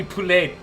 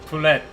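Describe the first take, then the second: First: "poulet" ending in an open ay; "poulet" with no final t; French pronunciation. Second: "Poulet" with the t sounded; "Poulet" with short e and final t; alternative pronunciation. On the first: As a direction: say "poulet" as poo-LAY, silent t. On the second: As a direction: say "Poulet" as poo-LET. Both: Shown as a demonstration. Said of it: "not sure if I'm saying it right".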